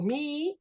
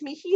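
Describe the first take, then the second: First: It is said without any breath between vowels. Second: A light breathy h sounds between the vowels. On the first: The speaker calls it wrong. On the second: The speaker calls it right.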